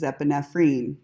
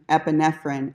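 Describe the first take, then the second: First: It is said with a non-American pronunciation. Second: It is said with an American pronunciation. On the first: The speaker calls it right. "Everybody else pronounces it right" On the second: The speaker calls it wrong. "Americans pronounce epinephrine"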